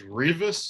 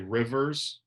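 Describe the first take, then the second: First: The name rhymes with Beavis, starting with R. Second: The name sounds like the word rivers. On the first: The speaker calls it right. "like Beavis, but with an R" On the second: The speaker calls it wrong. "Some people say Rivers"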